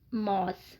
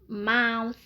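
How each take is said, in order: First: The vowel follows the spelling, African-English style. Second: The vowel is an open 'a'-like sound. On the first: The speaker calls it wrong. "not mouth" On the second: The speaker calls it right. "dengan membaca dengan vowel A"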